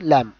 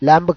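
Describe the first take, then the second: First: The word ends without a b sound. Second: The word ends with a b sound. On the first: The speaker calls it right. "బి silent అయిపోతుంది" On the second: The speaker calls it wrong. "ల్యాంబ్ కాదు"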